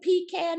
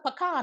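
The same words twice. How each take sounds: First: The word sounds like 'pee can'. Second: The word does not sound like 'pee can'. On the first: This is a pot kept under the bed. The speaker calls it wrong. "it ain't no goddamn pecan" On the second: This is the nut. The speaker calls it right. "it's a pecan"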